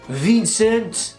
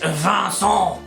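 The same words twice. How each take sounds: First: The name is said with English pronunciation. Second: The name is said with French pronunciation. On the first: "Your name is, uh, what you say" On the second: "It's pronounced en français"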